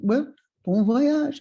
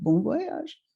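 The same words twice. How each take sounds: First: Put-on slow, lilting French-accented farewell; higher French old gentleman's voice. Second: Put-on higher, rising reply as a girl; young girl's tentative repeat; questioning echo. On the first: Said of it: "he said to me in a French accent". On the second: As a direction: echo it back with a lifted, uncertain ending. Her younger self echoes the Frenchman.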